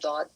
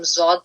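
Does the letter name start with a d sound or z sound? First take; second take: d sound; z sound. First: It starts with a d sound. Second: It starts with a z sound. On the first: This is how it is said in Arabic. "अरबी में दौद" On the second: This is how it is said in Urdu. "Urdu में हम ज़ौद प्रोनाउंस करते हैं"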